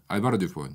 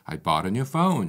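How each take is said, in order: First: Every syllable has the same even length. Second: Stressed syllables are longer, louder and higher. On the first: The speaker calls it wrong. "이게 한국식이고요" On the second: The speaker calls it right. "이렇게 하는 게 영어식의 리듬인 거죠"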